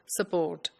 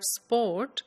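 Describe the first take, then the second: First: A short vowel is inserted between the s and p. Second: The s and p are said together without a vowel. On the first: "they insert a vowel between the sa and the p sound" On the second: "the word sport"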